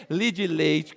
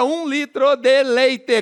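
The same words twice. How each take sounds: First: "Li de leite" as clipped Mineiro "li di leitch"; Mineiro three syllables. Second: "um litro de leite" slowly, every syllable sounded; six full syllables. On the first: Comedian showing Minas speech, "Li de leite" contracted Mineiro-style. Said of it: "Em Minas você compra o quê?". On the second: Comedian quoting São Paulo, "um litro de leite" in full syllables. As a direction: say "um litro de leite" with full "deh" and "lei-teh". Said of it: "com seis sílabas". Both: Shown as a demonstration.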